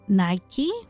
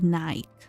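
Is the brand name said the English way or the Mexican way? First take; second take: English; Mexican. First: The name is said the common English way. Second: The name is said the Mexican Spanish way. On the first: "people pronounce it different" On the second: "in Mexico, we say"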